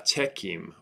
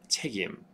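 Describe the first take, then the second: First: The middle consonant is an unvoiced K sound. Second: The middle consonant is a voiced G sound. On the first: The speaker calls it wrong. "what we don't want is" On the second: The speaker calls it right. "a G sound instead of a K sound"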